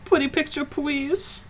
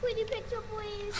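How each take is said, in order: First: Put-on high pleading baby talk. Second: Put-on high squeaky baby talk. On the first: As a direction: beg sweetly like a toddler. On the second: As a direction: whine it like a small child. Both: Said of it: "doing the baby voice".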